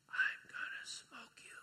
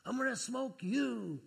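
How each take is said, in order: First: Slow, breathy whisper of a weak patient. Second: Slow, deliberate, higher insistence; insisting. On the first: Daughter just off the ventilator, speaking in a faint, slow whisper. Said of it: "in her very weak voice". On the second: Daughter insisting to her father, slow and firm. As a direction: lean on it slowly, she means it. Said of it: "She said, No". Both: Retold or imitated.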